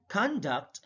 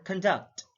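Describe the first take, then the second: First: CONduct, first syllable stressed; careful demo of CONduct. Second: ConDUCT, second syllable stressed; careful demo of conDUCT. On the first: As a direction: hit the CON in "conduct". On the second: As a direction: hit the DUCT in "conduct". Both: Shown as a demonstration. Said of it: "stress is the verbal emphasis used".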